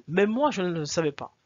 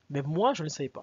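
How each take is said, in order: First: Louder, stress on moi; Même moi said louder, with moi hit hard; emphatic. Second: Said in the usual way. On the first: Shown as a demonstration. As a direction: punch the word moi louder.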